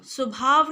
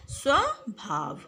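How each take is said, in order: First: स्वभाव as "subhaav"; wrong pronunciation. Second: स्वभाव slowly as "sva-bhaav"; correct pronunciation. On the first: Teacher showing pupils the mistake, स्वभाव said "subhaav". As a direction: open स्वभाव with "su" for "sva". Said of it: "स्वभाव नहीं है". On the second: Teacher giving pupils the right word, स्वभाव slow with "sva". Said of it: "सही शब्द है". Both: Shown as a demonstration.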